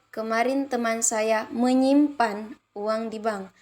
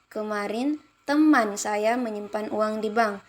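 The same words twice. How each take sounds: First: The stress falls on the word menyimpan. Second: The stress falls on the word teman. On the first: "kalimat keempat menyimpan" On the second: "kalimat kedua pada teman"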